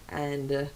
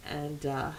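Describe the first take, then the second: No difference in how they are said.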